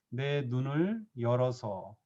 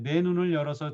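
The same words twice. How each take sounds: First: It is read slowly. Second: It is read fast.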